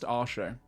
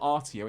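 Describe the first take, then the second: First: The middle consonant is a sh sound. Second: The middle consonant is a t sound. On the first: The speaker calls it right. "It's actually pronounced Arsho" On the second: The speaker calls it wrong. "it's not Artio"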